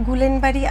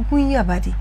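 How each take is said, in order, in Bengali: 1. নামটি 'gulen' উচ্চারণ দিয়ে শুরু হয়। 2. নামটি 'guiya' উচ্চারণ দিয়ে শুরু হয়। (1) "এটা গুলেনবাড়ি আমি বলি না" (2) "এটা হচ্ছে গুইয়াবাড়ি"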